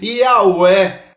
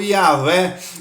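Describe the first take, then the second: First: The middle sound is a soft vowel-like glide. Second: The middle sound is a light v consonant. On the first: "como se tivesse apenas vogais no nome" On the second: "com um leve tom aí na letra V"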